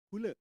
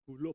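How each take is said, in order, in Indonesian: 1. Nama itu berakhir dengan vokal yang mirip 'e'. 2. Nama itu berakhir dengan vokal 'o' biasa. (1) "bukan Gulo, Gule" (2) "Gulo itu orang Jawa itu ngomongnya"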